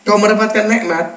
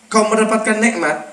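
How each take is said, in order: Both takes have the same delivery.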